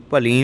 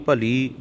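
First: ਭਲੀ with nasal long ee; nasalised ending. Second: ਭਲੀ ending in pure oral ee; no nasal. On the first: Teacher shows what to avoid, ਭਲੀ with nasal ending. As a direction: say ਭਲੀ with ee through the nose. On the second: Teacher models for learners, ਭਲੀ without nasal ending. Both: Shown as a demonstration. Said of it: "ਬਿੰਦੀਆਂ ਨਹੀਂ ਲਾਉਣੀਆਂ".

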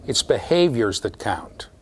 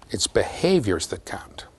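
First: Said in the usual way. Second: Slow, hushed repeat; emphatic whisper. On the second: Real, not acted. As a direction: whisper the key point slowly. Key point repeated for emphasis.

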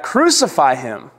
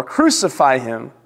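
First: Understated, drawn-out cry of a crowd; mild crowd shout. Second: Understated crowd demand, drawn out; mild insistent shout. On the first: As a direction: call it back slowly, restrained. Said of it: "they shouted back". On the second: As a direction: insist slowly without really shouting. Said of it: "shouted all the more". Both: A narrator's reading.

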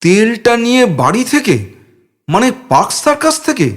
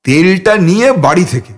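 First: Higher, rising in disbelief; can't believe the plan; incredulous echo of a friend. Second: Cheerful and proud. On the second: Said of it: "প্রসন্ন বদনে উদাত্ত গলায়". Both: A narrator's reading.

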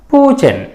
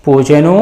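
First: పూచెన్ closed on a bare n, high then falling; పూచెన్ with no vowel after the n; vowelless final n. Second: పూచెను with the last ను fully voiced; full final ను. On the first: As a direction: drop the u, end పూచెన్ on n. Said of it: "పొల్లులాగానే ఉండాలని ఏమీ నియమం లేదు". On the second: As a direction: end పూచెను on an open u vowel. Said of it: "ను అన్నట్లుగా కూడా ఉండొచ్చు". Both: Shown as a demonstration.

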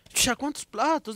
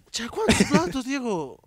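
First: Slow, high, drawn-out scolding mother; retelling his mother, mother asks slowly and high how many plates; mock mother scolding. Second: Higher, sharper repeat of mother's question; retelling his mother, mother repeats the question higher, demanding; mock mother scolding. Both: Mother scolding about dirty dishes.

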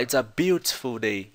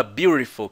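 First: "beautiful" with a clear t, British style; careful British take of "beautiful"; British accent. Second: "beautiful" with a flapped t, American style, like burifol; American accent. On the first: Teacher showing students the host's British pronunciation. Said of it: "Ele fala". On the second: Teacher showing students how an American says it. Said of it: "ele não fala beautiful, que nem americano". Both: Shown as a demonstration.

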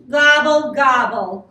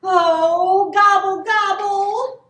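First: Loud gobble, falling off; grumbling turkey. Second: Loud, high gobbling cry; worried turkey. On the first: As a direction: grumble it out crossly. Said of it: "grumbled Turkey". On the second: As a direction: gobble out in rising alarm. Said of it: "Turkey worried". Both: A narrator's reading.

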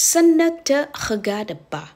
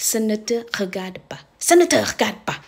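First: Ce ne te regarde pas, stretched slowly, higher; slow French demo. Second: Said in the usual way. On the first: Shown as a demonstration. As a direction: spell it out slowly for the class. (พูดช้าๆ เสียงสูงขึ้นเล็กน้อย) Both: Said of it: "ให้พูดว่า".

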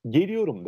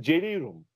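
First: "geliyorum" said cleanly with g and full -iyorum; Istanbul pronunciation. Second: Black Sea style "celeyrum", clipped ending; Trabzon dialect. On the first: Teacher showing the Istanbul form: standard "geliyorum". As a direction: standard Istanbul "geliyorum", every syllable clear. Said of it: "İstanbul şivesiyle "geliyorum" der". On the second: Teacher showing the Trabzon form: dialect "celeyrum". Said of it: "Ama Trabzon'da "celeyrum" olur". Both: Shown as a demonstration.

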